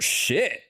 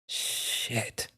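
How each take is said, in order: First: It sounds surprised. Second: It sounds disappointed and frustrated. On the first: Something caught you off guard. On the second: Something let you down. "you're almost disappointed, frustrated in a way"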